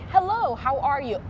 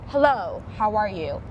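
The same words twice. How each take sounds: First: The greeting sounds open, warm and friendly. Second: The greeting sounds held back, cool and restrained. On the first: "Open and warm" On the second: "Very reserved"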